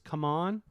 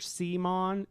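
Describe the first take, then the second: First: The name is said as 'come on'. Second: The name is said as 'see-mon'. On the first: This is the new way of saying the name. The speaker calls it right. "it's come on" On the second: This is the old way of saying the name. The speaker calls it wrong. "It's no longer Cmon"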